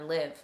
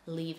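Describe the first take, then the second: First: The vowel is short, rhyming with give. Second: The vowel is long, rhyming with leave. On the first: The speaker calls it wrong. "I've been calling her Live because that was an assumption that I made" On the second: The speaker calls it right. "the pronunciation is actually Leave Judd"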